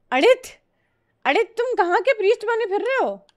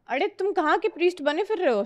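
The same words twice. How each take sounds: First: High, fast put-on teasing voice; teasing mock voice. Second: Higher, fast repeat of the tease, toned down; milder teasing voice. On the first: Teasing viewer Adit about his priest name, in a high put-on voice. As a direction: squeak the question out like a cartoon tease. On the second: Pretend. Teasing viewer Adit again, lighter put-on voice. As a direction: ask it again, less put-on. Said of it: "नहीं, priest लिखना था ना।".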